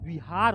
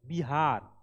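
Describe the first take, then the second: First: The word begins with a V sound. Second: The word begins with a B sound. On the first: The original word for a Buddhist monastery. "बौद्ध विहार होता है वी" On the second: The later form used as the region's name. "वी को ये लोग क्या किए ब"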